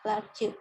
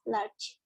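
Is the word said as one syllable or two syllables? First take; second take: two syllables; one syllable. First: The word is split into two syllables. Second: The word is said as one syllable. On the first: The speaker calls it wrong. "dibacanya nggak large" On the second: The speaker calls it right. "cuma satu kali pengucapan, jadi large"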